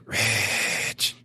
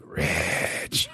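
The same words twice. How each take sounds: First: Drawn-out, grudging call of a name. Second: Grudging whisper. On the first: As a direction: call his name like you hold a grudge. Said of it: "It sounded like some grudge". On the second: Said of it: "you know, like". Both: Retold or imitated.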